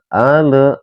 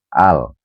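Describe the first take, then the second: First: An extra vowel is added after the l. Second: The l is closed with no following vowel. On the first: The speaker calls it wrong. "ya itu salah teman-teman ya" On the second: The speaker calls it right. "harus dibaca jelas"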